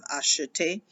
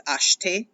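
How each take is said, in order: First: Acheter with the middle e as a soft uh; original full form. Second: Acheter squeezed into two syllables, ash-tay; swallowed e. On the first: Teacher recalling the original form, acheter with all syllables. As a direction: say acheter in three syllables, ah-shuh-tay. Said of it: "the original form is acheter". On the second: Teacher showing what everybody says, acheter with swallowed e. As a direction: say acheter with no vowel between sh and t. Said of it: "but it gets swallowed". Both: Shown as a demonstration.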